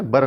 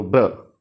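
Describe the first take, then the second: First: बर with an inserted vowel; बर, vowel between ब and र; wrong split blend. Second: ब्र as one sound; ब्र with no vowel inside; joined blend. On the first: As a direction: say बर as "bur". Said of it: "बर नहीं है". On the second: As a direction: glide ब straight into र in ब्र. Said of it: "बीच में कोई sound नहीं है". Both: Shown as a demonstration.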